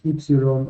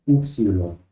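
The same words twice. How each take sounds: First: "ypsilon" said the modern Greek way, starting with ee; modern Greek pronunciation. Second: "upsilon" said the ancient way, starting with oo; ancient Greek pronunciation. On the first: Teacher gives students the modern letter name, modern Greek pronunciation. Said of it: "este nombre es del griego moderno". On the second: Teacher models the name the class will use, ancient Greek pronunciation. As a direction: begin "upsilon" on a Spanish u sound. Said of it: "La pronunciación antigua va a ser". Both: Shown as a demonstration.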